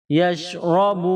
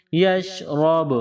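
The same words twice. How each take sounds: First: یشرب said with the final ب bounced; echoing stop. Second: یشرب drawn out slowly, final ب touched and released; slow qalqalah stop. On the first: Teacher showing pupils a qalqalah stop. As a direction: end on a light bounce of ب. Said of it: "اس پر قلقلہ کیا جاتا ہے". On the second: Teacher slowing the stop down for pupils. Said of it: "را با کے ساتھ touch کر کے جدا کریں گے". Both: Shown as a demonstration.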